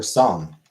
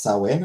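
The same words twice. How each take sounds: First: Song for Samhain, said as one syllable; song, the name run into a single syllable; alternative pronunciation. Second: Samhain said as SAH-win; Samhain with a w in the middle, "SAH-win"; pronunciation demo. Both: Shown as a demonstration. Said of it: "I feel like it's pronounced".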